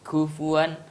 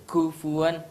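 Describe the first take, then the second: The two takes are said the same way.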